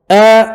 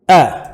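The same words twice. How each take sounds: First: "A" held long, higher and louder; long vowel. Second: Said in the usual way. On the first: Shown as a demonstration. Teacher spelling for students, long "A". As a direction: stretch "A" into a level, long aa. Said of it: "Maddu alif". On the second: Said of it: "Alif aba fili".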